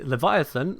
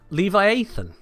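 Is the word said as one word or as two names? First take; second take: one word; two names. First: It is said as one smooth word. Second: It is split into two separate names. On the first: The speaker calls it right. "I didn't say Leviathan" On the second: The speaker calls it wrong. "I saw Levi and Nathan. So Levi Athan"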